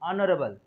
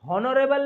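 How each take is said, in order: First: The word starts directly with a vowel sound. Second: The word starts with an audible h sound. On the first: The speaker calls it right. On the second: The speaker calls it wrong. "हॉनरेबल नहीं बोलना है"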